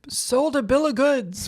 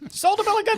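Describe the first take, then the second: First: It is said in a natural speaking voice. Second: It is said in an exaggerated put-on voice.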